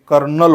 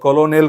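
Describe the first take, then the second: First: It is said with two syllables, ker-nel. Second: It is said with three syllables, ko-lo-nel. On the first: The speaker calls it right. "कर्नल होतो" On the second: The speaker calls it wrong. "बऱ्याचदा मुलं कलोनेल करतात"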